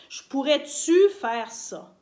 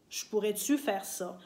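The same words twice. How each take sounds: First: "Je pourrais-tu faire ça?" said slowly, louder, leaning on "pourrais-tu"; slow stressed example. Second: Said in the usual way. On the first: Shown as a demonstration. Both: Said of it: "on va souvent dire".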